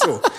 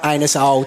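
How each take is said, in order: First: The word begins like 'a nuss', as 'a-nussel'. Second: The word begins with the sound of 'anus'. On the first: The speaker calls it right. "It's a nussel" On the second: The speaker calls it wrong. "It's not anusol just because that's where the problem is"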